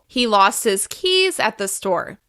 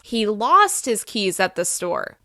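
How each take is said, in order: First: The word keys is stressed. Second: The word lost is stressed. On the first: It was the keys, not something else. "By emphasizing keys more than the rest of the other words" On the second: The losing is the important part. "By emphasizing the word lost"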